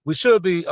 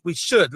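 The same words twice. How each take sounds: First: Should leaned on with weight; stress on should. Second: Said in the usual way. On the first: Shown as a demonstration. Guest stressing what the country should do, stress on should. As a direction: press down on should. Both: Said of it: "let me put emphasis on the word should".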